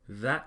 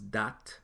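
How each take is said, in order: First: It is said with an English th sound. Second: It is said with a Patois hard d.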